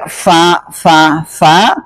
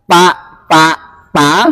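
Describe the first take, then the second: First: The syllable starts with an f sound. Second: The syllable starts with a p sound. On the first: This is the trained way needed for tajwid. The speaker calls it right. "kalau nggak dilatih dengan fa fa fa" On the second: This is the habitual untrained way of saying it. The speaker calls it wrong. "kalau kita biasanya pa pa pa"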